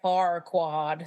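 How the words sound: It is said with an American accent. It sounds a little less rude. "whereas like I guess like with an American it's like Farquaad"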